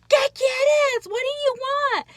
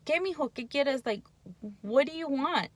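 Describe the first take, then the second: First: High, loud exasperated yell; snapping at the child. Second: Put-on gentle, patient question to the child; calm patient ask. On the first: Retold or imitated. Mom snapping at nagging child, loud exasperated yell. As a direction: bark it at the nagging kid. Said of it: "And that's our reptilian brain". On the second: Mom calmly asking her son what he wants, gentle. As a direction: ask kindly what he needs. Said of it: "But if we stop and think".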